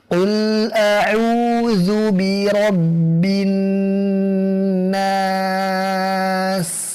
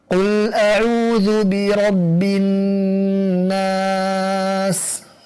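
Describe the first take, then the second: First: It is recited slowly and deliberately. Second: It is recited at a moderate speed. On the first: It suits someone seeking a certified recitation chain. "Membacanya dengan lambat tanpa tamtid, seperti ini" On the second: It suits someone reflecting on the meaning. "waktu membacanya lebih cepat daripada tahqiq"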